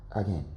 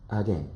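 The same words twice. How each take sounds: The two takes are said the same way.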